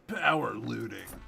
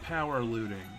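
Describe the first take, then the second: First: It is said forcefully, with extra power. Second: It is said plainly, with ordinary energy.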